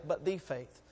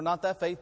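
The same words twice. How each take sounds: First: But THE faith, with "the" drawn out and falling; stress on the. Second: Not THAT faith, leaning on "that"; stress on that. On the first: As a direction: hit "the" as the one true faith. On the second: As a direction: push the word "that" as the wrong one. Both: Shown as a demonstration. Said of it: "not that faith, but the faith".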